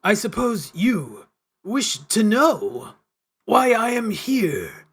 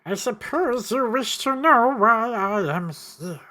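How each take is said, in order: First: Slow, higher and louder, stress on wrong syllables; grating unearthly cadence. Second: Higher, slow, eerie voice for the stranger; first stranger voice. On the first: Acted. Game master voicing the stranger to the player, slow and unearthly. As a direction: drag out each phrase like something not human. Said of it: "grating, unearthly cadence, stress falling on the wrong syllables". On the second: Shown as a demonstration. Game master's first take on the stranger, slow and eerie. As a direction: try out a spooky stranger voice. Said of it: "I got a voice for him".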